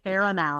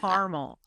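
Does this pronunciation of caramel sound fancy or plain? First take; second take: fancy; plain. First: The word is said in a fancier, fuller way. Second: The word is said in a plain, everyday way. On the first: Someone else says it, and it sounds pretentious. The speaker calls it wrong. "stop saying caramel. It's weird and and a little like it's fancier than we are" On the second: This is how down-home people say it. The speaker calls it right. "We say caramel, like normal"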